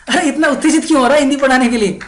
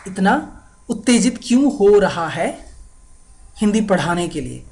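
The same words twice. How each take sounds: First: High, loud, very fast burst; excited mock question. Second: Said in the usual way. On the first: Asking a friend why so excited to teach, acted excitement. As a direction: rattle it off in amazed excitement.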